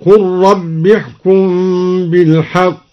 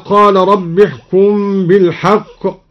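First: Slow chant, قل said short "qur" merging into rabb; imperative reading of قل. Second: Said in the usual way. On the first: Shown as a demonstration. Teacher shows the command to the Messenger, قل chanted short. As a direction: chant قل with short u and no long vowel. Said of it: "هكذا". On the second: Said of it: "قرأ الدوري بضم القاف".

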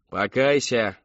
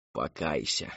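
First: Loud, forceful cry; shouted command. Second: Low, soft coaxing; gently urging. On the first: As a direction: shout it at the sinner. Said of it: "выкрикнула миссис Рэдклифф". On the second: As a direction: urge her softly, dropping the pitch. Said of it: "мягко поторопила миссис Рэдклифф". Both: A narrator's reading.

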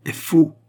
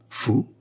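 First: FAUX hit high and loud; emphatic declaration. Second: "Faux" rising high in innocent puzzlement; candid, innocent question. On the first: Queen denounces the receipt, "faux" loud and emphatic. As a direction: land hard on "faux" as a verdict. Queen's firm accusation, echoed after. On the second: Jeanne echoes the queen's accusation, "Faux" rising candidly. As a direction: echo "Faux" as a guileless question. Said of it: "dit Jeanne avec candeur". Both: A narrator's reading.

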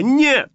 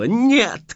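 First: Very high, loud shriek of refusal; a piercing final scream; louder scream. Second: A sharp panicked scream. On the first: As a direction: top the first cry in full panic. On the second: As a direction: fling out the no in panic. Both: A narrator's reading. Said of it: "кричала я".

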